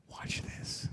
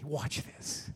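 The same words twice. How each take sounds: First: Soft unvoiced whisper. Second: Hushed, gentle whisper. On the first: Jesus whispering to the little boy. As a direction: lean in and whisper it close. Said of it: "quietly whispers". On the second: Acted. Jesus gently whispering to the boy. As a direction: breathe it gently to the child. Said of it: "Just gently".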